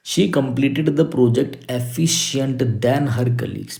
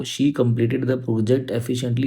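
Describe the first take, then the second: First: Slow, spaced-out reading of the question; teacher reading the exercise slowly. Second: Slow, careful corrected sentence; teacher reading the correction slowly. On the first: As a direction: read the wrong sentence word by word. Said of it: "reads the question slowly". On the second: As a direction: read the fix word by word. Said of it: "efficient आपका यहाँ पे नहीं आएगा". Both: Shown as a demonstration.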